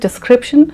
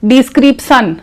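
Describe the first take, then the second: First: It is said with a plain, neutral pronunciation. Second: It is said with a regional mother-tongue pronunciation. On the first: The speaker calls it right. "The correct pronunciation is description" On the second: The speaker calls it wrong. "if you say description, it is wrong"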